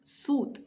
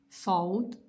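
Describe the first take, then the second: First: The vowel is a single plain u. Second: The vowel glides as a diphthong, au. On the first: This is the everyday colloquial pronunciation. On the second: This is the formal Quranic pronunciation.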